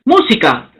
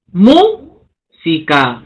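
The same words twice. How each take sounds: First: Said in the usual way. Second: Música drawn out slowly, leaning on MÚ; slow stress demo. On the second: Shown as a demonstration. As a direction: stretch the word to show where stress falls. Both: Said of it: "esdrújula".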